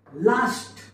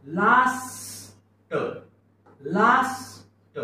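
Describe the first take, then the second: First: Said in the usual way. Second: लास्ट stretched long, final ट split off; slow high-pitched blending of लास्ट; sounded out slowly. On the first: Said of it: "शब्द काय झाला?". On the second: Shown as a demonstration. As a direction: draw out लास्ट, releasing the ट separately. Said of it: "समोर जाऊया".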